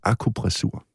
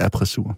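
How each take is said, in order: First: The word is said with the syllable 'ku'. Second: The word is said without the syllable 'ku'. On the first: The speaker calls it right. "Det hedder akupressur" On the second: The speaker calls it wrong. "og ikke appressur"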